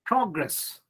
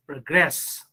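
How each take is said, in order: First: "Progress" stressed on PRO, as a noun; first-syllable stress. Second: "progress" stressed on GRESS, as a verb; light start, then hit GRESS in "progress"; second-syllable stress. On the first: Teacher giving the noun example, "Progress" stressed on PRO. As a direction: put the weight on PRO in "Progress". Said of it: "stress on the first syllable". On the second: Teacher giving the verb example, "progress" stressed on GRESS. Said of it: "same word is used as verb". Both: Shown as a demonstration.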